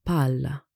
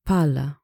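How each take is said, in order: First: "palla" with the L held long; double consonant. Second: "Palla" with one short L, as pala, louder; single consonant. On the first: Teacher shows ball as against shovel, long double L. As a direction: lengthen the L across both syllables of "palla". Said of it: "or lengthen the sound". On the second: Teacher contrasts shovel with ball, short single L. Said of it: "which is a shovel". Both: Shown as a demonstration.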